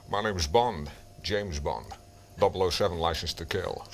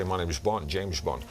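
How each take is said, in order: First: Deep, deliberate Bond impression; Sean Connery. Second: Shallow impression without the depth; Sean Connery. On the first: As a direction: drop the voice right down, unhurried. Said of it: "they don't get the depth". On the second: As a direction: do the amateur's lightweight Bond voice. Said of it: "but they don't get the depth". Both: Shown as a demonstration.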